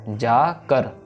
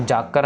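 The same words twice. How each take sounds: First: The word is split into two separate parts. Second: The word is said joined as one unit. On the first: The speaker calls it right. "अलग अलग पढ़ना है" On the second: The speaker calls it wrong. "इसको जाकर नहीं कहना हमने"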